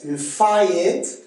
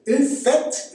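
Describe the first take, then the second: First: "une fête" as une fa-ète; Québécois diphthong. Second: Said in the usual way. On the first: Shown as a demonstration. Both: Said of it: "c'est A E".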